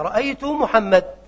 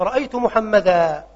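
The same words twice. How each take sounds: First: "محمد" ended without the alif, no -an; Rabi'a style, "محمد" with no nunation vowel; Rabi'a dialect form. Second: "محمدا" ended with a clear alif, slowly; standard accusative form. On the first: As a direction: say "رأيت محمد" slowly with a bare final d, no added a. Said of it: "نطقا وخطا أيضًا". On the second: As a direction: say "رأيت محمدا" ending in a long -aa. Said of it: "ففي حالة النصب يأتون بألف". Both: Shown as a demonstration.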